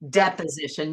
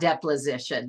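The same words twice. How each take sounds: First: The word is said without an L sound. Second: The word is said with an added L sound. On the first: The speaker calls it right. "There's no L in there" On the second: The speaker calls it wrong. "not deposition"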